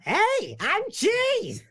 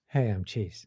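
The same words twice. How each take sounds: First: It is said in a cartoonish Roger Rabbit voice. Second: It is said in a calmer, natural voice.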